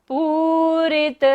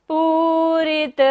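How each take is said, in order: No difference in how they are said.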